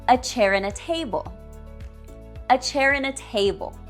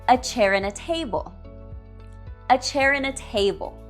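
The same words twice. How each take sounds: Both takes have the same delivery.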